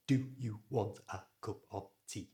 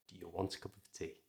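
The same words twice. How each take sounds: First: Stiff, separate words with full vowels in DO, YOU, A and OF. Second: Quick, soft, linked words with weak DO, YOU, A and OF; natural schwas. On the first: Teacher showing the worse version, stiff full vowels. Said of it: "how much better that sounds than". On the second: Teacher showing the better version, quick and reduced. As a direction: reduce the small words to schwas and run them together. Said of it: "how much better that sounds". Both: Shown as a demonstration.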